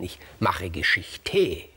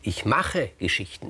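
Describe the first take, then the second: First: Geschichte slowed right down, falling, with mache stressed; weighty punchline. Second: Geschichten said slowly, with mache leaned on; slow, weighty: ich mache Geschichten; stress on machen. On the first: Gyges tops his boast to the king, slow and falling. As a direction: drag out ich mache Geschichte, landing low on Geschichte. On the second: Gyges boasts to the king, slowly stressing Geschichten. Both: Shown as a demonstration.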